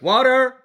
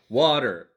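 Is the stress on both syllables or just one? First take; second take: both; one. First: Both syllables carry strong stress. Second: Only one syllable carries the stress. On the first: "if they were both emphasized" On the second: "You have your inflection like water"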